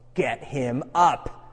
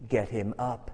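First: It is said at a louder volume. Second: It is said at a quieter volume.

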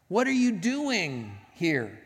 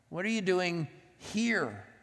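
First: The stress is on "doing". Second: The stress is on "here".

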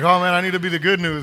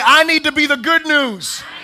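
First: It is said in a bored, sleepy tone. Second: It is said in an enthusiastic, energetic tone.

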